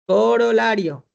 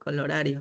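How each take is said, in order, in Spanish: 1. La palabra se dice corolario, con r antes de l. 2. La palabra se dice colorario, con l antes de r. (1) "Ya hice, corolario. Ya, muy bien" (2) "yo pronuncio mal entonces"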